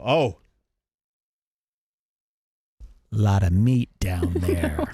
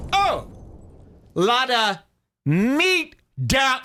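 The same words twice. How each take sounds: First: Low, slow leering remark; slow lewd low murmur; leering appraisal. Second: Much higher, shrill-free squeak of surprise; high-pitched cartoonish exclaim; squeaky mock exclaim. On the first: Retold or imitated. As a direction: drag it out like you're sizing her up. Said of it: "And then I'll go". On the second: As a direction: pop the voice way up in mock shock. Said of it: "And I'll say".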